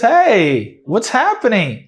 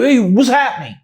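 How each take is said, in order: First: It sounds relaxed and friendly, a casual greeting. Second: It sounds confrontational, as if ready to fight. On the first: The speaker is simply asking what is happening. "or just go like this" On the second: The speaker is challenging someone. "an intonation that sounds like you're ready to fight"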